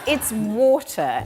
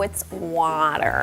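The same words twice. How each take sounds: First: It is said in a British accent. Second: It is said in an American accent.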